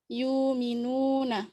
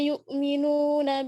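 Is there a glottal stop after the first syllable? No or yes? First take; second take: no; yes. First: The glottal stop becomes a long u vowel. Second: A glottal stop is heard after the first syllable. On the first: "bacaan Warash membaca dengan ibdalul hamzati wawan madiyatan" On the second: "Hafaz membaca"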